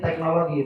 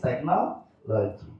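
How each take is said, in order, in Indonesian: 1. Itu diucapkan dengan pelafalan Indonesia. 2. Itu diucapkan dengan pelafalan Inggris. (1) "don't say technology" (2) "But if in English, technology"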